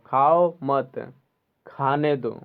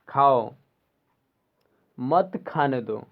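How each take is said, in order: First: There is a pause right after 'mat'. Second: There is a pause right after 'khao'. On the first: Do not eat yourself, but let others eat. "खाओ मत, यानी तुम मत खाओ" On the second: You eat, but do not let others eat. "यानी तुम खाओ, मत खाने दो यानी दूसरे को मत खाने दो"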